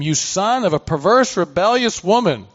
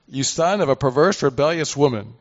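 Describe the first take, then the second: First: Raised, higher and louder curse; reading as an enraged king; Saul's anger. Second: Said in the usual way. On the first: Acted. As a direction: hurl the insult at your son as furious Saul. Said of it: "Then Saul's anger burned". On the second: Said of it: "I guess this is a kind of a curse".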